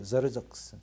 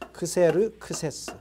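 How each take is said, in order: First: The name begins with a z sound. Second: The name begins with a ks sound. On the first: This is the English pronunciation. "영어로 하면은 저르적스라고 읽습니다" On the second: This is the ancient pronunciation. "고대 발음으로는 크세르크세스"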